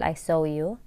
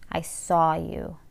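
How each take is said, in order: First: Saw has the gliding 'oh' vowel of 'so'. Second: Saw has the open rounded 'aw' vowel. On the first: The speaker calls it wrong. "ما نقول low و so. خطأ نقول" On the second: The speaker calls it right. "هذا النطق الصحيح"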